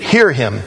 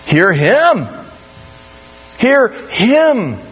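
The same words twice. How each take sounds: First: "Hear" carries the weight, "him" trails; stress on HEAR. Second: HIM swooping high, then falling; stress on HIM. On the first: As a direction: lean on Hear, toss off him. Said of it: "I used to read it". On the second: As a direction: land hard and long on the word "him". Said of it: "the emphasis is on the second word". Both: Shown as a demonstration.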